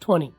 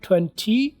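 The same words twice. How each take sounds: First: The second t is dropped entirely. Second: The second t is sounded out clearly. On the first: "American वाले next आने वाले टी को silent कर देते" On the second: "twenty को British वाले टी blast करते हैं"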